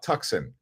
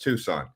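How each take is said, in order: First: The c sound is heard in the middle. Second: The c sound is silent in the middle. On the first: It is said the way visitors say it. The speaker calls it wrong. "people they come here and they call it Tucson" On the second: It is said the way locals say it. The speaker calls it right. "It's Tucson"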